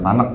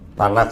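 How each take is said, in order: First: The word ends in a hard k sound. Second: The word ends in a breathy kh sound. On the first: It sounds like the word for cooking rice. The speaker calls it wrong. "bukan Tanak Pak. Kalau Tanakh udah langsung nasi aja" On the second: The speaker calls it right. "Tanakh ya"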